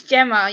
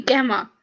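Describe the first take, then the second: First: "Gemma" with a soft J sound, like Jemma; soft G name. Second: "Gemma" with a hard G, like gem-ah with a G as in go; hard G name. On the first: Shown as a demonstration. Correcting Sterling on her name: "Gemma" said softly, like Jemma. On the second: Retold or imitated. Showing how Sterling mispronounces her name: "Gemma" with a hard G. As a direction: mimic the wrong "Gemma" with a hard G. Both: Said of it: "You're saying my name wrong".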